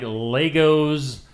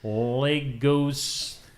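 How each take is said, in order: First: The name sounds like the toy word Legos. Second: The name sounds different from the toy word. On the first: The speaker calls it wrong. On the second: The speaker calls it right.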